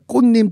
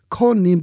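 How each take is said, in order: First: The name is said with Korean pronunciation. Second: The name is said with English-style pronunciation. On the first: A Korean-American actor did the dubbing.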